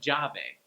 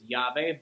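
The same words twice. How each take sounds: First: The double L is said like a J. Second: The double L is not said like a J. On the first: "Peruvians will sometimes call it llave" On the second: "key is llave"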